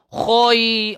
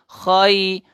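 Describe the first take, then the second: First: The syllable is said with an oi vowel. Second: The syllable is said with an ai vowel. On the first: The speaker calls it wrong. "bukan khoi macam tu tuan-tuan" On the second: The speaker calls it right. "Dia khai"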